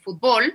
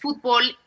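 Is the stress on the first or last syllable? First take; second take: last; first. First: The stress is on the last syllable. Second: The stress is on the first syllable.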